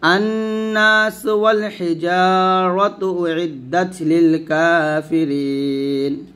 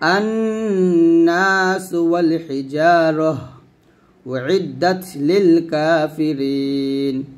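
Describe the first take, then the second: First: It runs straight through without pausing. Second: It pauses after the middle phrase. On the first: "মিলে পড়লে এরকম হবে" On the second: "ওয়াকফ ধরলে হবে"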